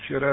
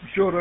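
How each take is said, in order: First: The word is said with a plain Russian pronunciation. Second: The word is said with a Mongolian-sounding pronunciation. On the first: "а вчера это по-русски" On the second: "Вчера это по-монгольски"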